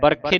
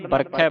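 First: ਬਰਖੇ with a closed -e ending; wrong vowel ending. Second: ਬਰਖੈ with an open "ai" ending; correct dulavan ending. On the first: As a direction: end ਬਰਖੇ on "ay", not "ai". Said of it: "ਬਰਖੇ ਨਹੀਂ ਪੜਨਾ". (ਬਰਖੇ ਦੇ ਅੰਤ ਵਿੱਚ ਇੱਕ ਲਾਂ ਦੀ ਆਵਾਜ਼) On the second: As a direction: open the last vowel of ਬਰਖੈ to "ai". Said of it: "ਬਰਖੈ ਪੜਨਾ". (ਬਰਖੈ ਦੇ ਅੰਤ ਵਿੱਚ ਦੁਲਾਵਾਂ ਦੀ ਖੁੱਲ੍ਹੀ ਆਵਾਜ਼) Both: Shown as a demonstration.

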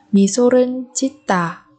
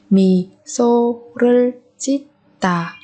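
First: Said in the usual way. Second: Slow 미소를 짓다 in separate beats; syllable by syllable. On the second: Shown as a demonstration. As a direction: space out each syllable of 미소를 짓다. Teacher splits phrase by syllable. (đọc chậm 미소를 짓다 từng âm tiết)

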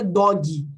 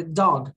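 First: "dog" said as "dó-gui"; Portuguese misreading. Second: "dog" in one syllable with a faint g; English pronunciation. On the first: Teacher ruling out the full-letter reading, mispronounced. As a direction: give "dog" a second syllable, "gui". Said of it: "não é dog". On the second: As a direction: end "dog" on a barely sounded g. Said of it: "quase eu falei o G". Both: Shown as a demonstration.

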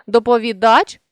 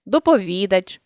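First: Доповідач with final ДАЧ stressed; stress on last syllable. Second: Доповідач with ВІ stressed; stress on third syllable. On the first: Teacher shows a stress variant, доповідач stressed on ДАЧ. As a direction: land on ДАЧ ending доповідач. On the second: Teacher shows a stress variant, доповідач stressed on ВІ. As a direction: lean on ВІ inside доповідач. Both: Shown as a demonstration. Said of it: "наголосивши той чи інший склад".

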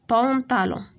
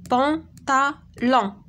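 First: Said in the usual way. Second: بونطالون split into three beats, a clear gap after each syllable. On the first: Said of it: "في اين سيلاب كنسمعو بي". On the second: Shown as a demonstration. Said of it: "دابا غادي نشوفو في اين سيلاب". (بونطالون مقطعة سيلاب بسيلاب)

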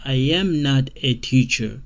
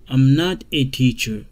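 First: Full form. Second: Said in the usual way. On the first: Shown as a demonstration. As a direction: say every word apart.

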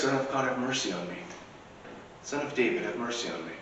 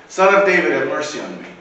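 First: Soft, hushed prayer for mercy; a murmured plea, almost to oneself; quiet plea. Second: Louder pleading shout; yelling louder. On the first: Worshippers praying quietly to Christ, soft plea. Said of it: "we call out to Christ". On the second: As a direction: beggar yelling louder over the crowd that tried to hush him, shouting. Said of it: "he yelled all the more loudly". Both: Acted.

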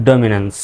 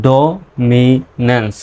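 First: Said in the usual way. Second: dominance very slow, in three separate parts; syllable by syllable. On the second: Shown as a demonstration. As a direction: break dominance into do, mi, nens with pauses. Teacher breaks word into syllables. (Dominance ভেঙে ভেঙে, খুব ধীরে)

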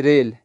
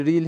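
First: ریل rhyming with English "rail"; Urdu pronunciation. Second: ریل rhyming with English "feel"; Persian pronunciation. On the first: Teacher contrasting the Urdu word for train, Urdu pronunciation. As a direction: say ریل as "rel", with an ay-like long e. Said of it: "Urdu میں ہم train کو پڑھتے ہیں ریل". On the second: Teacher contrasting the Persian word for track, Persian pronunciation. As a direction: say ریل as "reel", with a long ee. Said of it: "فارسی میں یہ جو ریل". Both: Shown as a demonstration.

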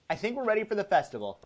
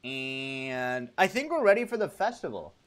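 First: Fast, higher rattled-off line; quick repeat. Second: Said in the usual way. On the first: Pretend. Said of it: "repeats the line faster". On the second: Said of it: "repeats the line".

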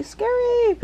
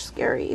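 First: Scary squealed very high. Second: Whispered scary; scary barely breathed; whispering. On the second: Unvoiced take. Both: Real, not acted.

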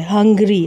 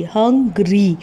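First: Said in the usual way. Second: हंग्री split slowly into two beats, हं and ग्री; syllable by syllable. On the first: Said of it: "ये हंग्री means इसमें दो vowel sound हैं". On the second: Shown as a demonstration. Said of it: "अ की sound भी और ई की भी sound है". (हंग्री को दो सिलेबल में तोड़कर)

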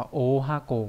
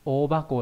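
First: "o hako" with an h starting the second word; unvoiced-h misreading. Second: "O bako" with b starting the second word; voiced b reading. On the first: Teacher shows learners the reading not used, "hako" with h. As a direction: say "o hako", keeping the h sound unchanged. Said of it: "nó không đọc là o hako". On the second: Teacher models the big-box word, "bako" with b. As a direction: say "O bako", the h turned to b. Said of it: "mà đọc là thành bako". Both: Shown as a demonstration.

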